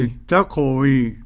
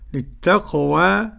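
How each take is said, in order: First: The final vowel leans strongly toward e. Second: The final vowel is a fully open a. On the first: "بالإمالة الكبرى" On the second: "بالفتح"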